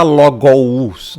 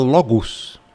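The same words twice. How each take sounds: First: "logous" drawn out as lo-go-us; exaggerated literal "logous"; wrong, as written. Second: "logos" ending in -gus, one vowel; second syllable of "logos" as a simple u; correct Greek sound. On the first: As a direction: loudly sound both o and u in "logous". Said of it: "Aqui você não vai falar". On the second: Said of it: "aqui você vai falar". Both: Shown as a demonstration.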